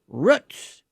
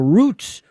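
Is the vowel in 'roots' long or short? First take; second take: short; long. First: The vowel in the word is short. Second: The vowel in the word is long.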